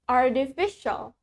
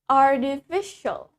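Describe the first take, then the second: The two takes are said the same way.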